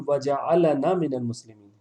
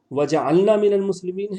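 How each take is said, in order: First: وجعلنا as wa-ja-'a-la-na, open "a" after ل; vowel on ل. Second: وجعلنا as wa-ja-'al-na, ل closing the syllable; vowelless ل. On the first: Teacher offering the other reading, وجعلنا with voweled ل. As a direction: sound a separate "la" in وجعلنا. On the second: Teacher quizzing on the dua, وجعلنا with vowelless ل. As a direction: run ل straight into نا in وجعلنا. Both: Shown as a demonstration. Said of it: "اس میں کیا ہے سوچیے".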